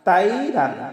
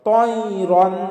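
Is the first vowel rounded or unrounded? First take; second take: unrounded; rounded. First: The first syllable is said with spread, unrounded lips. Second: The first syllable is said with rounded lips. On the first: The speaker calls it wrong. "আমরা তয়রনকে অনেকে বলি তাইরান" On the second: The speaker calls it right. "মুখটা একটু গোল করে উচ্চারণ করব"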